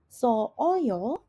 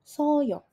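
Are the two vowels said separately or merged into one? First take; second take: separately; merged. First: The two vowels are said as separate syllables. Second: The two vowels are merged into one syllable. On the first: The speaker calls it wrong. "tidak berbunyi sebagai so oyo" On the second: The speaker calls it right. "tetapi dia akan langsung berbunyi sebagai soyo"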